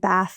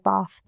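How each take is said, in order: First: It is said with an American accent. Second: It is said with an English accent. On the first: This is the way learned to fit in. "I pra practiced how to say bath" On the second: This is the original way that drew attention. "instead of bath"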